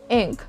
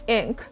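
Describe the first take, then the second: No difference in how they are said.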